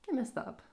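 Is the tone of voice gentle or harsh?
gentle. It is said in a soft, gentle tone. The speaker is being kind to themself. The speaker calls it right.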